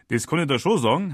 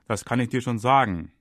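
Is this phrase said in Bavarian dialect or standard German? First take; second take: Bavarian; standard German. First: It is said with a Bavarian dialect accent. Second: It is said in standard German pronunciation.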